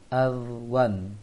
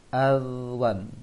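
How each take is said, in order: Both takes have the same delivery.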